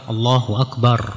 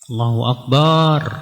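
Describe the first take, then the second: First: The last vowel of Akbar is kept short. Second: The last vowel of Akbar is drawn out long. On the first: God is the greatest. The speaker calls it right. "yang benar kan Allahu Akbar" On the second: God is a big drum. The speaker calls it wrong. "barnya dipanjangin ya"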